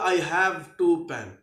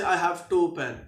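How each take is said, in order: First: Each sound is said separately and carefully. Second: Neighbouring sounds blend together in casual speech. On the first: "ए को भी मैं अलहदा sound segment कहूंगा और ई को भी" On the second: "everyday speech में बोलूंगा"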